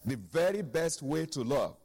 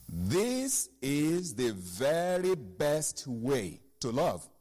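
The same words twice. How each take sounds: First: "very" hit hardest, the rest of "The very best way to love" at normal pace; stress on very. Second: "This is the very best way to love" drawn out slowly, word by word; slow emphatic reading. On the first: Preacher repeats verse so church pays attention, stressing "very". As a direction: lean on "very" and let it fall. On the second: Preacher reads the key verse to church, slowed right down. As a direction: let each word of "This is the very best way" land slowly. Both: Shown as a demonstration. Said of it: "Pay attention".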